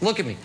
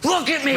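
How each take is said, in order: First: It is said quietly and calmly. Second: It is screamed loudly and intensely.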